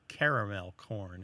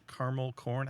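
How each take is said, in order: First: Caramel corn as CARE-uh-mel corn; three-syllable caramel. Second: Caramel corn as CAR-mul corn; two-syllable caramel. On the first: Host showing what he can't imagine saying, caramel as CARE-uh-mel. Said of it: "It just doesn't sound right". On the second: Host showing his natural compound, caramel as CAR-mul. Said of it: "add it on to another word". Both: Shown as a demonstration.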